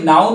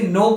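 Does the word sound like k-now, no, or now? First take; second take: now; no. First: It rhymes with cow, with a silent k. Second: It sounds like no, with a silent k. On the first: The speaker calls it wrong. "इसे नाउ नहीं बोलना है" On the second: The speaker calls it right. "ये silent है, सिर्फ आपको इसे नो pronounce करना है"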